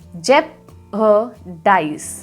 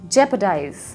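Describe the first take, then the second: First: The word is broken into parts with a break. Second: The word is said smoothly without any break. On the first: "अलग अलग" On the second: "उसको इकट्ठा करके"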